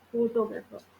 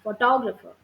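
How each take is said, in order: First: All syllables get roughly equal stress. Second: The stress is on the second syllable. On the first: The speaker calls it wrong. "Is this the right pronunciation? No" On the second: The speaker calls it right. "Second part of the syllabus"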